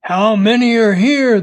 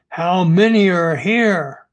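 First: Loud, higher-pitched interrogation; insistent, raised-voice question; forceful demand. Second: Understated growled demand; a touch of menace in the question; mild growl. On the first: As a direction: demand an answer, raising the voice. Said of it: "the man demanded again". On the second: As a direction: lightly growl it as an interrogation. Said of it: "he growled". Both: A narrator's reading.

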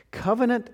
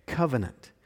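First: "Covenant" pitched much higher to announce it; high emphasis. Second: Said in the usual way. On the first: Real, not acted. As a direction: lift "Covenant" up high, like a heading. Repeats key word twice.

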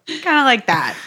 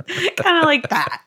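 First: Said in the usual way. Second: Giggling through the words; laughing. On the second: Real, not acted. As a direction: say it while laughing.

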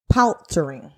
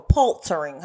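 First: "paltering" in the first of two ways; first pronunciation. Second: "paltering" with the first vowel changed; alternative pronunciation. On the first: Speaker offering a term's first pronunciation of "paltering". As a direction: say "paltering" one way, before the alternative. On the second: Speaker offering a second pronunciation of "paltering". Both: Shown as a demonstration. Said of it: "however you wanna pronounce this".

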